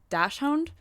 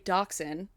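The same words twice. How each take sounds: First: It is pronounced closely following its spelling. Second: It is pronounced the usual English way. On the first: The speaker calls it wrong. "the way that my mom says it is dachshund" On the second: The speaker calls it right. "how to say dachshund"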